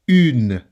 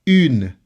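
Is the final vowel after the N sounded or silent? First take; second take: silent; silent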